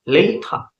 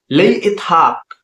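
First: Said in the usual way. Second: Slow, raised-pitch teaching pronunciation; drawn-out demonstration for learners; slow model. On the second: Shown as a demonstration. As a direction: sound it out slowly and higher. Teacher models phrase slowly first.

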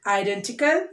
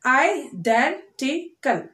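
First: Said in the usual way. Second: IDENTICAL slowly as i, den, ti, cal; four separate beats on IDENTICAL; split into syllables. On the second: Shown as a demonstration. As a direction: pause after each syllable of IDENTICAL. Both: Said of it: "four syllable words".

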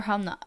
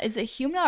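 First: "Humna" said HAHM-nuh; alternative pronunciation. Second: "Humna" said HYOOM-nuh; first-guess pronunciation. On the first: Streamer offering a second guess, "Humna" as HAHM-nuh. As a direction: say "Humna" with an open "hah" and no y-glide. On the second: Streamer checking a viewer's name, "Humna" as HYOOM-nuh. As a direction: say "Humna" opening with a "hyoo" sound. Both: Shown as a demonstration. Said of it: "Is it Humna or Humna?".

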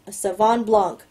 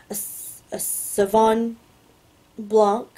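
First: Said in the usual way. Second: Sauvignon, long pause, then Blanc; halting sounding-out. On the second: Real, not acted. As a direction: feel your way slowly through Sauvignon Blanc. Sounds out wine name, then rereads.

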